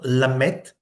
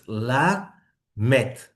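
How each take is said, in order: First: The first syllable closes on a doubled m. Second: The first syllable ends openly before the m. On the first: The speaker calls it wrong. "It's not lamet" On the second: The speaker calls it right. "it means an open syllable. It's la met"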